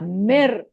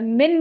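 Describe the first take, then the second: First: The n merges into the following r sound. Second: The word ends with a clear n sound. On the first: The speaker calls it right. "ये मीम जो है रॉ के साथ मिल जाएगा" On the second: The speaker calls it wrong. "मिन नहीं पढ़ेंगे"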